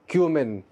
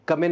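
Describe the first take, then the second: First: क्यूमिन as "KYOO-min"; correct pronunciation. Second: कमिन as "KUM-in", no y glide; wrong pronunciation. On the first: Teacher correcting learners, क्यूमिन with a "kyoo" start. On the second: Teacher showing learners the mistake, कमिन as "KUM-in". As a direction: say कमिन with a short "kuh". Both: Shown as a demonstration. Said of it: "कमिन नहीं है".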